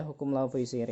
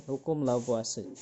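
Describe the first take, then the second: First: "Lavoisier" said as la-vo-i-si-er; spelling reading of "Lavoisier", la-vo-i-si-er; read as spelled. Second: "Lavoisier" said as la-vwa-se; three-syllable "Lavoisier", la-vwa-se; usual spoken pronunciation. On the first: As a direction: sound out the written vowels of "Lavoisier", la-vo-i-si-er. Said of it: "Meskipun tulisannya Lavoisier". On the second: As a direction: say "Lavoisier" French-style, la-VWA-se. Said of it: "Biasanya dibacanya". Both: Shown as a demonstration.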